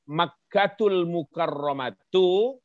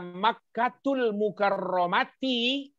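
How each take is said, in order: First: The last word ends with an 'u' vowel. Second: The last word ends with an 'i' vowel. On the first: The second word describes Mecca as honored. "kalau kalian melihat tulisan ini" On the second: The second word is a possessor, not a description. "Kalau dibaca Makkatul Mukarramati"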